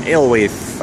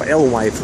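First: "Alewife" with the final f barely heard, like ale-way; first pronunciation attempt. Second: "Alewife" ending clearly in wife, like el-wife; second pronunciation attempt. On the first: Unsure of the station name, "Alewife" tried as ale-way. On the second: Correcting the station name, "Alewife" tried as el-wife. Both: Shown as a demonstration.

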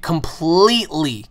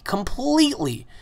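First: Said in the usual way. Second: Higher, drawn-out completely; lingering emphatic "Completely.". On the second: Real, not acted. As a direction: stretch out "Completely." high and slow. Emphatic repeat.

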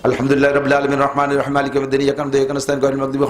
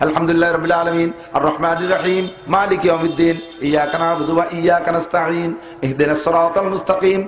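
First: Fatiha gabbled fast without a pause; rushed in one breath. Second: Each verse of আলহামদুলিল্লাহ set apart with breaths; verse by verse recitation. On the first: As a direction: race through the verses in one breath. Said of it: "এক নিঃশ্বাসে মারিয়ে দিয়েছেন". (এক নিঃশ্বাসে দ্রুত তাড়াহুড়ো করে পড়া) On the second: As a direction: recite with a pause after every verse. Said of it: "এভাবে কেটে কেটে পড়বো". (প্রতি আয়াতে থেমে থেমে তেলাওয়াত) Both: Shown as a demonstration.

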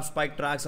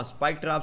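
First: spike ट्रैक्स ending in ks, tracks; tracks version. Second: spike ट्रैप ending in a clear p, trap; trap version. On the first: Vlogger offering viewers the "tracks" name, ट्रैक्स pronounced. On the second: Vlogger offering viewers the "trap" name, ट्रैप pronounced. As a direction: say ट्रैप with a plain p, stress on ट्रैप. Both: Shown as a demonstration. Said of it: "आप जो बोलना चाहें".

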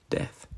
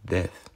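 First: Death. repeated much softer, almost dropped; a hushed repeat of Death; softer echo. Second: Said in the usual way. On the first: Shown as a demonstration. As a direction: let Death. fall away quietly. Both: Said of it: "repeats the word quieter".

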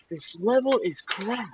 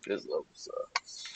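First: Much higher, slow, cartoonish squeak; high squeaky voice. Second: Said in the usual way. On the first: Repeats complaint in high silly voice.

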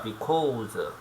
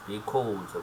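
First: Because stretched out slowly, bi-kaw-seu; slow drawn-out because. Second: Said in the usual way. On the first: Shown as a demonstration. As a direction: draw out because slowly for learners. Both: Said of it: "이유를 설명하겠네".

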